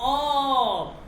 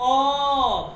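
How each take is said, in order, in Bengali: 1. স্বরধ্বনিটি একটি গোলাকার 'o' ধ্বনি। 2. স্বরধ্বনিটি একটি গোলাকার 'o' ধ্বনি।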